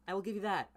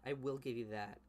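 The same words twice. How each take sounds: First: High, loud I will give you that; emphatic grudging concession. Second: Said in the usual way. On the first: Real, not acted. Conceding point, then repeats plainly.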